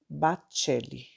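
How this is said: The name is said with Italian pronunciation. "Em italiano, se pronuncia"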